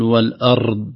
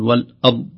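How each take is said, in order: First: The r sound is trilled too much. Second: The r sound is left out. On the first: "فالتكرار الزائد" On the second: "لا يظهر الراء"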